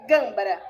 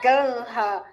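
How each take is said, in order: First: A quick b sound is heard between m and r. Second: No b sound is heard between m and r. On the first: The speaker calls it right. "é gâmbara, bem rapidinho" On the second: The speaker calls it wrong. "Muita gente fala ganha"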